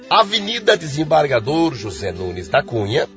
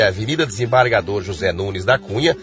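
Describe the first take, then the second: First: The address is read slowly with pauses. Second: The address is read at a normal pace.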